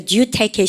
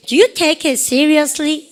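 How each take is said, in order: First: Said in the usual way. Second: Very slow and a bit higher, each word stretched; slow question for students to repeat; slow drill. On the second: Shown as a demonstration. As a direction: model the question slowly for the class to echo. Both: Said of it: "시작".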